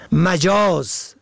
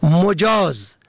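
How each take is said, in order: First: مجاز as slow "majāz", short "a" first; fatha on first. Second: مجاز as "mojāz", rounded "o" first; damma on first. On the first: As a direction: stretch مجاز out, opening with "ma-". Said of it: "به فتح اول". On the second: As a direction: open مجاز with "mo-". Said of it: "به ضم اول". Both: Shown as a demonstration.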